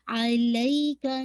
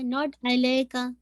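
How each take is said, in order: First: अलैका slowly, ला stretched two counts; correct recitation. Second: अलैका clipped, ला not stretched; wrong version. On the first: Teacher modelling the right अलैका. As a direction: draw out the ला in अलैका. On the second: Teacher showing the student's wrong अलैका. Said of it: "अलैका नहीं". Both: Shown as a demonstration.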